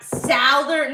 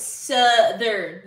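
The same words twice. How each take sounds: First: "Southern" with an "ow" vowel, as in south; mispronounced Southern. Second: "Southern" drawn out with a short "uh" vowel; corrected Southern. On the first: Streamer demonstrates the wrong way, "Southern" said as SOW-thern. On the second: Streamer corrects the word, slow "Southern" said as SUH-thern. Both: Shown as a demonstration. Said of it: "no, it's Southern".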